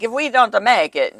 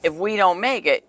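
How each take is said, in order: First: Light imitation of a heavy Italian accent. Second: Said in the usual way. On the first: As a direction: mimic a late husband's Italian accent. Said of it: "so it sounded more like". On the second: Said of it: "actually had a very heavy Italian accent".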